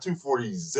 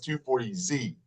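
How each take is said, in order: First: The letter is said as zed. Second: The letter is said as zee. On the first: The speaker calls it wrong. "It's not two forty Z" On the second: The speaker calls it right. "It's two forty Z"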